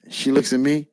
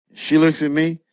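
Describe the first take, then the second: No difference in how they are said.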